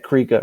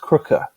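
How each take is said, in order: First: The surname is said the Hollywood way. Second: The surname is said the South African way. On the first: "in Hollywood they get Krieger right" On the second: "pronouncing it correctly, the proper South African ways"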